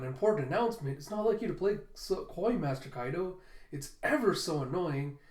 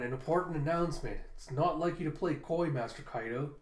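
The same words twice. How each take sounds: First: Bratty tease. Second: Said in the usual way. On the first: Shown as a demonstration. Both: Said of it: "that's Ulti's going".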